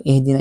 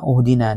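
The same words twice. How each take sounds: First: "ihdina" with a clear i; the right vowel; correct pronunciation. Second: "Uhdina" with a rounded u; the wrong vowel; wrong pronunciation. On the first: Teacher shows students the correct "ihdina". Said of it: "Hindi ni uhduna". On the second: Teacher warns students against "Uhdina". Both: Shown as a demonstration.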